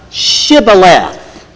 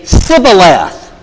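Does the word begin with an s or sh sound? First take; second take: sh; s. First: The word begins with an sh sound. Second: The word begins with an s sound. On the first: The speaker is from the local region. The speaker calls it right. "They couldn't say the SH together" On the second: The speaker is from another region. The speaker calls it wrong. "They would say Sibboleth"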